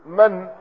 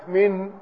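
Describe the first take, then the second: First: "من" pronounced man, with a short a; fatha on mim. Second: "من" pronounced min, with a short i; kasra on mim. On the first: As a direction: say "من" as man, not min. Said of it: "بفتح الميم". ("من" بفتح الميم) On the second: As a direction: say "من" as min, not man. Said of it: "بكسر الميم". ("من" بكسر الميم) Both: Shown as a demonstration.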